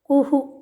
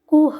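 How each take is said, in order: First: A short vowel echoes after the final h. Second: It ends on a bare h sound. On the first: The speaker calls it right. "कुहू ऐसे ही बोलना है" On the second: The speaker calls it wrong. "कुह ऐसा उच्चारण नहीं करना है"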